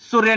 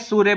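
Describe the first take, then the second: First: The 'u' vowel is short. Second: The 'u' vowel is long. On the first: The speaker calls it wrong. "सूर्य नहीं बोलते" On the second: The speaker calls it right. "बड़ा ऊ लगा के सूर्य बोला जाता है"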